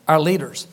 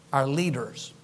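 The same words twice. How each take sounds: First: Said in the usual way. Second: Hushed. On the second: Shown as a demonstration.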